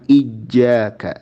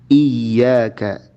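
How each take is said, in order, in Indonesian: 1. Huruf ganda itu bunyi j. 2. Huruf ganda itu bunyi y. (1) "jangan ijjaka" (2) "Contohnya iyyaka"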